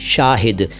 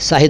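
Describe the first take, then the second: First: It begins with an sh sound. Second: It begins with an s sound. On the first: The speaker calls it right. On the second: The speaker calls it wrong.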